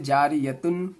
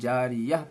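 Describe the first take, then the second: First: The word ends with a -tun sound. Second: The word ends with a soft h sound. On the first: The reader continues without stopping. "जारियतुन की जगह" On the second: The reader stops at this word. "गोल ता ता पर वक़्फ़ करना हो तो हाय साकिना बन जाती है"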